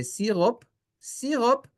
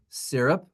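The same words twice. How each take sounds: First: Syrup said as see-rop, rolled r, higher; Israeli pronunciation. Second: Said in the usual way. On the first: Shown as a demonstration. Teacher shows how Israelis say syrup, Hebrew pronunciation. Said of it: "they say syrup". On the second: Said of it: "We say syrup".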